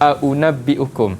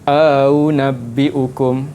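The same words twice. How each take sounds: First: The second hamzah is pronounced as a full stop. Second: The second hamzah is softened, with a long vowel inserted. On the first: "asal dia kita baca" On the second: "akan dibaca dengan"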